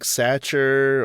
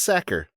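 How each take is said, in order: First: The name does not rhyme with cracker. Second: The name rhymes with cracker. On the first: The speaker calls it wrong. "I always wondered how to pronounce his name" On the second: The speaker calls it right. "Rhymes with cracker"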